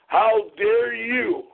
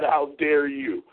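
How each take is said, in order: First: Slow, high "how dare you"; drawn-out, high-pitched indignation; outraged. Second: Slow, measured "how dare you"; slow affront with falling end; restrained indignation. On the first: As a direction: raise the pitch and stretch each word in affront. Repeats challenge with rising outrage. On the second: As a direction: stretch out the challenge, keeping it contained. First take of indignant challenge. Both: Real, not acted.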